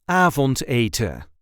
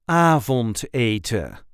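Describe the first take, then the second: First: The final n is left off. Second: The final n is left off.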